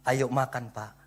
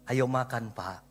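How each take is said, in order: No difference in how they are said.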